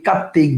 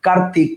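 First: কার্তিক as "kattik", doubled t; assimilated pronunciation. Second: Said in the usual way. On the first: Shown as a demonstration. Teacher listing examples for students, assimilated pronunciation. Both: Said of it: "সব হচ্ছে পরাগত সমীভবনের উদাহরণ".

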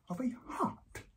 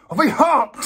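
First: Near-whispered, stunned reveal; hushed disbelief. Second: Loud, high-pitched exclamation of horror; outraged shout. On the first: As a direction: let it out almost voiceless. First, stunned reveal of shaved shape. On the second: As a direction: explode in appalled disbelief. Same reveal repeated as outraged outburst. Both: Acted.

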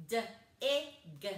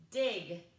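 First: D-I-G as duh, short i, guh; chopped-up sounds. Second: Said in the usual way. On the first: Shown as a demonstration. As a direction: chop D-I-G into three sounds. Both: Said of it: "and chop it up".

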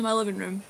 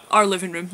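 First: Said in the usual way. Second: "our" hit louder as a correction; stress on our. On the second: Real, not acted. Correcting herself about the shared flat, stress on "our". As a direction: lean on "our", then ease off. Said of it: "not just mine".

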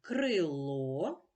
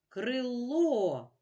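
First: Said in the usual way. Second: Крило with the final О higher, louder and held; stress on крилО. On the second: Shown as a demonstration. Teacher marking the stress for pupils, raised and punched last syllable. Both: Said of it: "наголошений голосний О".

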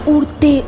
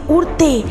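Both takes have the same delivery.

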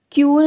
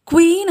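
First: ക്യൂൻ said as kyoon, no w sound; wrong old pronunciation. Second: ക്വീൻ said kween with a clear w after the k; correct pronunciation. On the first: Teacher showing the learners' old kyoon. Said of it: "എന്നായിരുന്നു ഉച്ചരിച്ചിട്ടുണ്ടായിരുന്നത്". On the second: Teacher modelling the right way to say ക്വീൻ. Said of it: "ഇതിൻ്റെ യഥാർത്ഥ pronunciation". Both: Shown as a demonstration.

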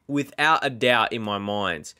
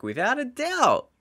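First: Said in the usual way. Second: Much higher, sung-out without a doubt; high emphatic. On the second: Real, not acted. Insisting the strike was perfect, high emphatic.

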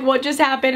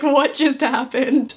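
First: Said in the usual way. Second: Slow, laughing disbelief; dragged-out giggly what just happened; stunned laugh. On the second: Retold or imitated. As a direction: let the laugh spill through the stunned question. Friends stunned after surprise kiss.

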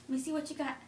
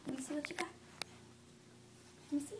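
First: Said in the usual way. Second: Put-on playful whisper to a toddler. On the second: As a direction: whisper it like a secret. Repeated as a whisper to child.

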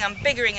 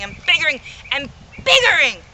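First: Said in the usual way. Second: Each biggering louder and higher; rising to a loud boast; building rant. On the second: Acted. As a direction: swell into a shout.

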